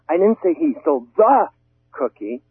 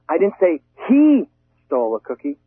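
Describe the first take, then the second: First: The stress falls on the word cookie. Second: The stress falls on the word he. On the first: A different item was taken. "Maybe he stole the sandwich" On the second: A different person took it. "maybe she did"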